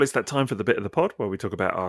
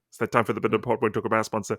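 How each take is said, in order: First: It is said quickly in a podcast voice. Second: It is said even more quickly, rushed.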